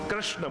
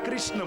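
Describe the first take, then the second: First: The first syllable uses a retroflex syllabic r. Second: The first syllable sounds like kri. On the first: The speaker calls it right. "કૃષ્ણ બોલાય. રટરષાણામ મૂર્ધા, મૂર્ધન્ય સ્થાન હોય" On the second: The speaker calls it wrong. "ઘણા કૃષ્ણ બોલે"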